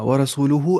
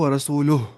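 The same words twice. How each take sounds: First: It is said as if the recitation continues. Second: It is said as if stopping for a pause. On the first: "अगर पॉज नहीं देंगे" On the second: "अगर पॉज देंगे तो"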